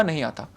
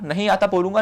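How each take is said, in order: First: A calm, unbothered नहीं आता; soft honest admission. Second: Said in the usual way. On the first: Shown as a demonstration. Candidate to interview board, quietly admitting he doesn't know. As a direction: say it quietly and simply, lower. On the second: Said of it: "तो मैं honest रहूँगा".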